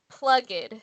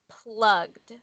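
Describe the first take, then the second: First: The ending is said as an extra syllable. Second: The ending adds no extra syllable. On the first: The speaker calls it wrong. "when we add the E D at the end, it sounds like it should say plugged" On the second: The speaker calls it right. "the correct way to say it is plugged"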